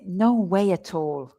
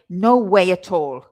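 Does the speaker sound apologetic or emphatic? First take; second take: apologetic; emphatic. First: It sounds soft and a little apologetic. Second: It sounds forceful, with every word stressed. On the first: The speaker disagrees but stays friendly. "I'm also almost a little bit apologetic with it" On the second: The speaker is not open to discussion. "then I'm being obviously very emphatic. The intonation is different. Everything is stressed"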